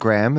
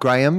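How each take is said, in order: First: The name is said in an American accent. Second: The name is said in a non-American accent. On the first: This is how the guest's own people say it. "as his people say / You pronounce it in the American" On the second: This is how the hosts' own people say it. "as we would say"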